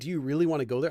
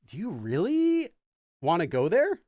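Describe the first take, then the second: First: The pitch stays level on the word 'really'. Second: The pitch rises on the word 'really'. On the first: It is a plain question. "I'm not saying" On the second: The speaker doubts it is a good idea. "If you put really with an upward intonation in the middle of your sentence"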